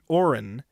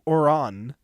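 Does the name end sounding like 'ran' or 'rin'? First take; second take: rin; ran. First: The name ends with a short 'rin' sound. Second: The name ends with a 'ran' sound. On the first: The speaker calls it wrong. "bro pronounced it Orin instead of Oran" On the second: The speaker calls it right. "instead of Oran"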